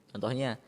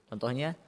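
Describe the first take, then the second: Both takes have the same delivery.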